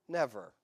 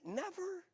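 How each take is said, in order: First: Said in the usual way. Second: High questioning "Never?" rising way up; "Never?" pitched high and softer, like you can't believe it; incredulous never. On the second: Shown as a demonstration. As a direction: squeak "Never?" in disbelief. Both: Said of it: "it feels like never".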